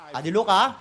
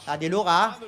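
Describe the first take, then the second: No difference in how they are said.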